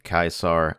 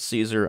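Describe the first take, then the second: First: The name is said the classical Latin way. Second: The name is said the usual English way. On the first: "the technical Latin pronunciation is something along the lines of Caesar" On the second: "I've always pronounced this series as Caesar"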